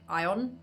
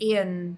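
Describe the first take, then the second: First: It sounds like the science word ion. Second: It sounds like the first name Ian. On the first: The speaker calls it wrong. "it was pronounced like Ion because of the spelling" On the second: The speaker calls it right. "it's got to be like Ian"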